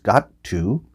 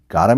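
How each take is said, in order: First: The two words are said fully and separately. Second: The two words are blended into one reduced form.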